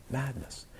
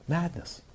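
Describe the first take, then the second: First: Dropped almost to a murmur; softer, sad echo of madness; quiet echo. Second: Said in the usual way. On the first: Real, not acted. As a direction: let the repeat fade away, much softer. Echoed, much quieter.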